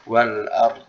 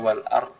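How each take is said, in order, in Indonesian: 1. Huruf r dialirkan sebentar, lalu bunyi d terdengar. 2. Bunyi d di akhir dihilangkan setelah r. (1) "roknya di uh, apa dialirkan suaranya sedikit baru masuk ke dot sukunnya" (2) "Jadi jangan sampai dibaca wal ard atau wal ar"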